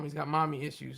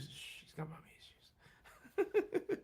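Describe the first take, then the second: First: Said in the usual way. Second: Hushed, secretive whisper, much higher and softer; mock whisper. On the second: Teasing the guest about his mom in a whisper. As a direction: breathe it like a secret behind a hand.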